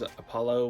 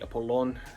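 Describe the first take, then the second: First: The name has the usual English pronunciation. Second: The name has the Greek dialect pronunciation. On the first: "Such as Apollo would be" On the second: "I would say Apollon in my videos"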